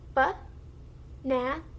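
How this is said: The syllables are said apart, with pauses between. "first syllable, second syllable, third syllable"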